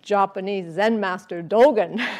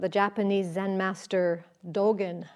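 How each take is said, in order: First: It is said in a changed, put-on voice. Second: It is said in his ordinary speaking voice.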